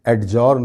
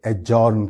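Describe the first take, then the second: First: एडजॉर्न said with a clear D, "ad-journ"; wrong pronunciation. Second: एडजॉर्न said "ajourn", D silent; correct pronunciation. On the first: Teacher shows the common wrong एडजॉर्न with a D. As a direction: say एडजॉर्न with the D heard. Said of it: "नहीं बल्कि". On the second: Teacher gives the right एडजॉर्न, no D sound. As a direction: drop the D in एडजॉर्न. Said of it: "बल्कि एडजॉर्न कहलाएगा". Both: Shown as a demonstration.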